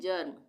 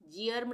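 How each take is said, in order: First: The vowel is a short plain 'er' sound. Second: The vowel is a long 'ee' gliding into 'er'. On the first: The speaker calls it right. "इसको हम पढ़ेंगे जर्म" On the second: The speaker calls it wrong. "जियर्म नहीं पढ़ेंगे इसको हम"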